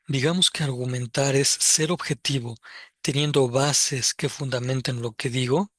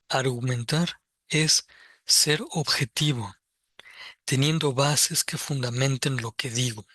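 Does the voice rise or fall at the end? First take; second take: rise; fall. First: It is said as a question, rising at the end. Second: It is said as a statement, falling at the end.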